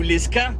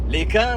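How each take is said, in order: First: The name is said with an S sound. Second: The name is said without an S sound. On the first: "Si on prononce le S" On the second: "Si on prononce le S"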